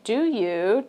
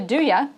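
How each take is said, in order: First: 'You' is said fully with a clear vowel. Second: 'You' is reduced to a short 'ya'. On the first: "do you turns into" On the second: "turns into do ya"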